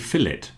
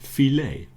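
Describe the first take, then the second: First: The final T sound is pronounced. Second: The final T sound is silent. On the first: This is the usual British way. "We usually pronounce the T in England" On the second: This is the usual American way. "in America they like to pronounce it as if it's French"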